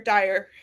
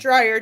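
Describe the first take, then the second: First: No R sound follows the first D. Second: An R sound follows the first D. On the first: The speaker calls it right. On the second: The speaker calls it wrong.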